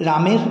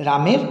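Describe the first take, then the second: Both takes have the same delivery.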